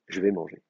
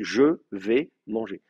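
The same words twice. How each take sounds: First: The vowel of je is dropped. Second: The vowel of je is fully pronounced. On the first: This is how people talk when speaking fast. "quand on parle vite" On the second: This follows the written spelling. "l'orthographe française vous dit non, vous dites je vais manger"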